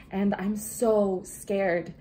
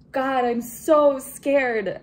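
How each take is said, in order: First: Slow, drawn-out confession of fear; scared. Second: Loud, slow, higher cry of fear; scared outcry. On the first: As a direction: stretch out the words, admitting you're scared. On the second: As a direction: wail out how scared you are, slowly. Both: Real, not acted.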